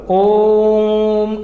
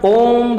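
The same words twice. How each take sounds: First: ओम chanted very slowly, the ओ held long; ओम intoned with a long sustained ओ; prolonged om. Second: Said in the usual way. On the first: Shown as a demonstration. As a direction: draw out ओम like a resonant chant. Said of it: "जैसे कि मैं ओम बोला". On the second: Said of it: "ओम ऐसे करके".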